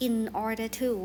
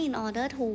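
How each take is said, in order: First: Said in the usual way. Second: "in order to" said slower, a little higher, rising at the end; slow, rising "in order to" as the key phrase; teacher's highlighted word. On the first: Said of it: "คำว่า in order to เนาะ". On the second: Shown as a demonstration. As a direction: lift "in order to" out for the class. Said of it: "คำว่า in order to เนาะ แปลว่า".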